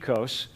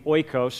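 First: It is pronounced the Greek way. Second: It is pronounced the common English way. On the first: "The Greeks would pronounce it ekos" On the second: "you have yogurt that you call maybe oikos"

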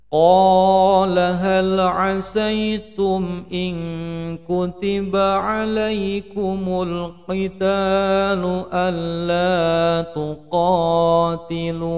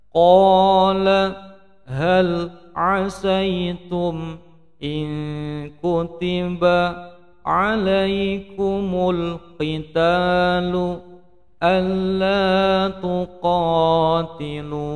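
First: It is said at normal speed. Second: It is said more slowly.

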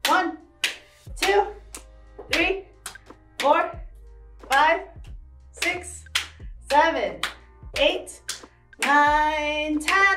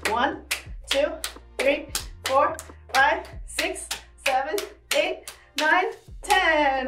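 First: The numbers are counted at a slower pace. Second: The numbers are counted as fast as possible.

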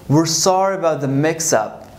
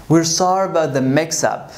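The two takes are said the same way.

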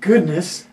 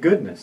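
First: The word is said as a surprised exclamation. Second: The word is said calmly, as a plain noun. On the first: It expresses surprise. The speaker calls it wrong. "not goodness" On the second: It names a virtue. The speaker calls it right. "it's actually goodness"

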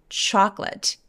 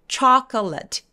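First: The middle vowel is dropped entirely. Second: The middle vowel is clearly pronounced. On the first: The speaker calls it right. "중간에 O가 없어져요" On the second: The speaker calls it wrong. "chocolate가 아니라 중간에 O가 없어져요"

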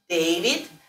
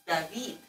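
First: The name is said in an English way. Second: The name is said in a Spanish-like way. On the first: "pronounce like Anglo-Saxon name David" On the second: "if it's like in Russian or Spanish, it's David"

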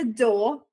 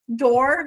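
First: The final r sound is dropped. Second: The final r sound is pronounced.

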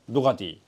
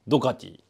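Both takes have the same delivery.

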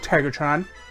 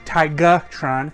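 First: The name is said like 'Tiger-tron'. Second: The name is said like 'Tiga-tron'. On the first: The speaker calls it wrong. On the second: The speaker calls it right.

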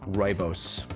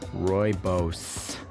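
First: The word is said at normal speed. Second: The word is said slowly and deliberately.

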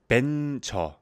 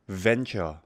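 First: The word begins with a B sound. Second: The word begins with a V sound. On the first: "한국어로는 venture" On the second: "it's the V pronunciation"

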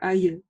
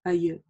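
The two takes are said the same way.

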